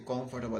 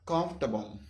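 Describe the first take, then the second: First: "comfortable" said in full as COM-for-ta-ble, four syllables; "comfortable" with the second syllable stressed, FOR sounded; wrong pronunciation. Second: "comfortable" said as KAMF-tuh-bul, three syllables; "comfortable" with the second syllable swallowed; right pronunciation. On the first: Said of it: "So you don't say comfortable". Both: Shown as a demonstration.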